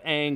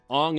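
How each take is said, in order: First: The name is said in the original, familiar way. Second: The name is said in the changed, Asian-style way. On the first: It follows the familiar series pronunciation. "instead of"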